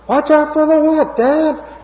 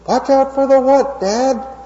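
First: It is said in a higher-pitched voice. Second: It is said at a normal, lower pitch.

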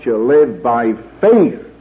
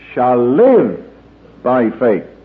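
First: The word faith carries the main stress. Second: The word live carries the main stress. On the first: The point is how one lives, by faith and not by works. "So I would suggest you read it this way" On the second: The point is the life that faith produces. "So I read"

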